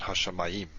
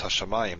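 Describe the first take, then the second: First: Hashamayim stressed on the last syllable, YIM; misplaced final stress. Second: Hashamayim with the stress on MA; stress on second-to-last syllable. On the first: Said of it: "not on the last one". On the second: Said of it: "the stress is here, not on the last one". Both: Shown as a demonstration.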